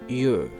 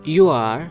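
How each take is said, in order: First: It is said as one contracted syllable. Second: It is said as two full words. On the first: "यू आर को यूर" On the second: "यू आर को यूर"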